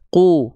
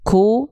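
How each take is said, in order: First: The consonant releases with no puff of breath. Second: The consonant releases with a puff of breath. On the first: The speaker calls it right. "tapi ku" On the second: The speaker calls it wrong. "Nggak boleh ku"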